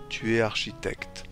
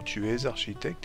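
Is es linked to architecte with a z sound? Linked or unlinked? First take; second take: unlinked; linked. First: The s of es is not linked to architecte. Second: A z sound links es to architecte. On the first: This is casual everyday speech. The speaker calls it wrong. "vous entendrez beaucoup" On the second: This is the standard careful form. The speaker calls it right. "Normalement, ... est plus correct"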